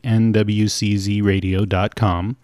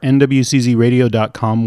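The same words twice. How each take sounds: First: It is said slowly. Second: It is said at normal speed.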